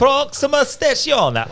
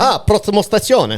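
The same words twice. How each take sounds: First: High, slow Italian announcer; mock Italian. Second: High, hammed-up Italian announcer; mock Italian. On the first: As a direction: drawl it like an Italian station call. Echoing Italian station call. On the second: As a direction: sing it like an Italian train call.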